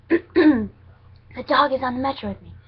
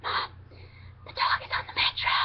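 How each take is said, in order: First: Slow, loud and high, spelling it out; louder repeat. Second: Urgent hushed whisper into the phone. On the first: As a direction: say it slowly and louder so mom gets it. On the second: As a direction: whisper so the train can't hear. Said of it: "and I was whispering". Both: Retold or imitated.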